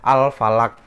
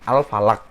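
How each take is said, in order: The two takes are said the same way.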